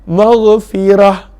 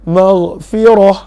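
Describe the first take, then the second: First: The r sound is thin and light. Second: The r sound is heavy and full. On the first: "maka itu nipis" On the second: "maka dibaca dengan tebal"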